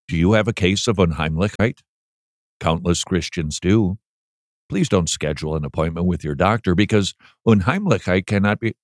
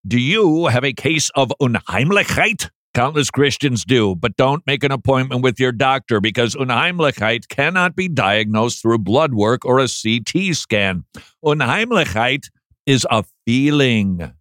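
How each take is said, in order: First: Dull reading. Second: Lively reading. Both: Shown as a demonstration. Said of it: "That's how I want to read it".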